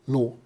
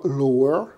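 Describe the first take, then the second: First: The final r sound is dropped. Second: The final r sound is clearly pronounced. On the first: The speaker is relaxed and informal. "on se relâchait" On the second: The speaker is in a formal situation. "au lieu de dire lower"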